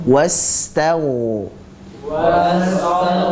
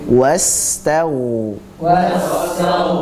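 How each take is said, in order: The two takes are said the same way.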